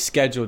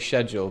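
First: The word begins with an 'sk' sound. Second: The word begins with an 'sh' sound. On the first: "because I was a half American growing up loving basketball" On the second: "you got to say schedule"

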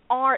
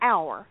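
First: The word sounds like the letter R. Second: The word sounds like the word hour. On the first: The speaker calls it wrong. "R, because rednecks" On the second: The speaker calls it right. "You say it just like that, hour"

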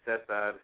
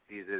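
First: The name is said with a Spanish pronunciation. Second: The name is said with an American pronunciation. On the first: "how you pronounce it in Spanish" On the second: "how you pronounce it in American"

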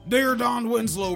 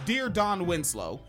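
First: It is said in a put-on gruff wrestler voice. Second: It is said in the speaker's ordinary voice.

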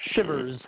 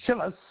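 First: The word is said in a plain accent. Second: The word is said with a German accent.

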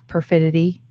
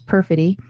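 First: The word is said with extra syllables. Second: The word is said with its usual syllables. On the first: The speaker calls it wrong. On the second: The speaker calls it right.

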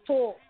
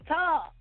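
First: The word is said with a Brooklyn-style 'tork' vowel. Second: The word is said with a standard American vowel. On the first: This is how people from Brooklyn say it. "I'm from Brooklyn, so we say talk" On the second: This is the expected way to pronounce it. "You mean talk"

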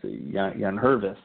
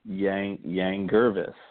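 First: The second name begins with an H sound. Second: The second name begins with a hard G sound. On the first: The speaker calls it right. "But the G is silent" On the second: The speaker calls it wrong. "I actually screwed it up on previous shows"

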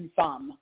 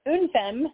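First: The name is said with a French pronunciation. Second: The name is said with an English pronunciation. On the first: "some French people call it une femme" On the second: "We call it Unfem"

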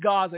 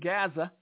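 First: It is said with the standard pronunciation. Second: It is said the way Southern politicians say it. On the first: The speaker calls it right. "But it is Gaza" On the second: The speaker calls it wrong. "as some southern politicians like to call it"

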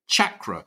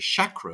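First: The word begins with a hard ch sound. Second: The word begins with a soft sh sound. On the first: The speaker calls it right. "there we heard Mars Sector 6 say chakra" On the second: The speaker calls it wrong. "I say chakra, as though it's spelled S-H"

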